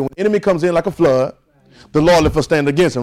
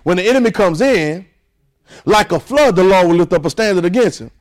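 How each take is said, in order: First: The break comes after the word flood. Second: The break comes after the words comes in.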